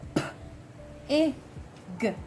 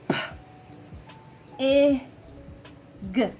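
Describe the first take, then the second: First: The sounds are said faster. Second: The sounds are said slowly.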